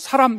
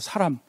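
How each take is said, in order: First: The first vowel is cut short. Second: The first vowel is held long. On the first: The speaker calls it wrong. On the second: The speaker calls it right.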